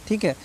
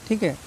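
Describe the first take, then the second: No difference in how they are said.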